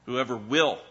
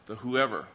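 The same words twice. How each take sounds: First: "will" punched and falling, "Whoever" light; stress on will. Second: "whoever" given the weight, "the" thrown away; stress on whoever. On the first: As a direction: hit the word "will", not "whoever". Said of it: "The point of the verse is the will". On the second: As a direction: lean on "whoever" as they do. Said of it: "they always emphasize the whoever". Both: Shown as a demonstration.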